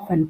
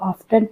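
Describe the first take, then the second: First: The t sound in the middle is silent. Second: The t sound in the middle is pronounced. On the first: "या फिर ऑफन पढ़ें" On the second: "चाहे तो इसको ऑफ्टन पढ़ें"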